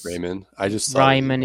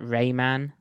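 First: The name is said with a German pronunciation. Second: The name is said with an American pronunciation. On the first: "Raimann is way too difficult, even though he's actually Austrian" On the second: "Americans can only pronounce that Rayman"

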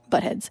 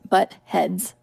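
First: It is said as one compound word. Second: It is said as two separate words. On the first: The speaker calls it wrong. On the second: The speaker calls it right. "That is two words"

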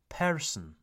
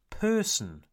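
First: The R sound is clearly pronounced. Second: The R sound is not heard. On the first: The speaker calls it wrong. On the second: The speaker calls it right.

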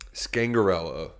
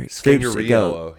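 First: The name is said plainly, without added Italian flair. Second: The name is said with exaggerated Italian flair. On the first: "Slacks gave one pronunciation" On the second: "He added he made it extra Italian"

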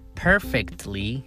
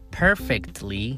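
First: The T sound is clearly pronounced. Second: The T sound is clearly pronounced.

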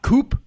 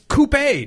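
First: The word ends without any E sound. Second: The word ends with a sounded E vowel. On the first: "Coupes are for chicken" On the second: "The E is not silent"

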